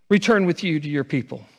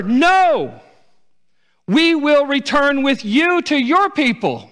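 First: Said in the usual way. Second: High, loud, slow anguished cry; pleading daughters-in-law. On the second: Acted. Daughters-in-law pleading with Naomi to stay, anguished loud cry. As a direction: cry out, begging not to be sent away. Daughters weeping refuse to leave.

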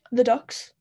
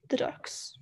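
First: Excited announcement. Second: Whispered echo. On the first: Announces a favourite detail. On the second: Echoes the announcement softly. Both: Real, not acted.

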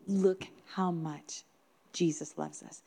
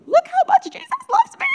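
First: Reflective. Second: Put-on very high, loud child's shout; overjoyed child. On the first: Real, not acted. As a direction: let it sink in slowly, softly at the end. Preacher's reflective repeat of child's words. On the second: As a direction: squeal it out like a thrilled little girl. Retold child running around overjoyed.

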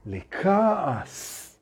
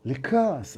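First: Drawn-out word. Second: Said in the usual way. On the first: Shown as a demonstration. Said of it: "repeated word, drawn out". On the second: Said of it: "repeated word, plain".

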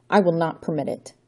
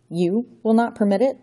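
First: Said in the usual way. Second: Put-on villain scoffing at the boy's defiance; mocking echo. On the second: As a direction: throw his words back incredulously. Count mocks Johnny's words.

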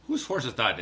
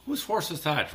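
First: Said in the usual way. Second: A light, mock Irish lilt; jokey Irish accent on a song title. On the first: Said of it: "it's actually not". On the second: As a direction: toss off a quick, half-hearted Irish brogue. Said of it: "the Irish accent".

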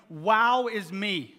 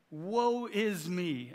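First: Loud, stretched-out WOW; mock self-admiration. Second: Slow, long-drawn lament; crying out in woe. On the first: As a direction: crow "Wow" slowly, as parody of the lament. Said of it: "doesn't respond to that by saying". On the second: Acted. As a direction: draw out WOE as a prophet's cry. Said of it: "I cried".

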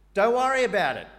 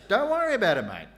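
First: Loud, high, breezy reassurance; casual paraphrase. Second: Loud, high Aussie reassurance; Aussie mate. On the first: Preacher paraphrasing the Lord, loud and breezy. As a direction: toss it off loudly, no big deal. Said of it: "That's my translation". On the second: Preacher voicing God as an Aussie, loud and cheery. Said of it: "the Aussie version". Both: Pretend.

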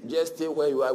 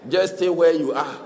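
First: Said in the usual way. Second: Louder, laughing brush-off; dismissive. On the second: Retold or imitated. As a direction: wave them away with a laugh. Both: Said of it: "they say".

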